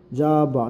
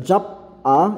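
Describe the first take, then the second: First: The final consonant flows into the next vowel. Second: The final consonant is cut off before the vowel. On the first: The speaker calls it right. "kaya nagiging jaba" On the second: The speaker calls it wrong. "imbis na"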